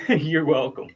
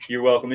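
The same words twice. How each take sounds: First: "you're welcome" with a laugh in it. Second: Said in the usual way. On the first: Real, not acted. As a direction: laugh through it, amused. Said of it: "laughs while thanking the asker". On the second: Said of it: "repeated plainly".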